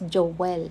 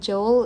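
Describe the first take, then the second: First: The name is said with a Filipino pronunciation. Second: The name is said with a standard pronunciation. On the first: "sa atin sa Pilipinas is Joel" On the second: "Joel is how you pronounce the, the name Joel"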